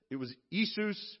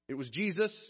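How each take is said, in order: First: "Jesus." said EE-soos, Latin Iesus with no J; "Jesus." pronounced the Latin way, ee-soos. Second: Said in the usual way. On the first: Shown as a demonstration.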